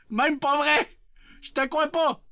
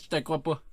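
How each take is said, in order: First: High, punchy protest; exclaimed disbelief. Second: Said in the usual way. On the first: Acted. Streamer tells chat he doesn't believe it, high exclamation. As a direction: blurt out your disbelief in a high voice.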